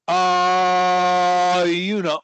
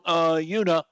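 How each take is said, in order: First: The uh sound is held very long. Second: The uh sound is held medium long.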